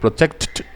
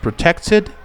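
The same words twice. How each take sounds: First: The ending is a doubled T with no vowel. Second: The ending is a full extra syllable. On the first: The speaker calls it wrong. "Para no decir protected" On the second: The speaker calls it right. "decimos protected"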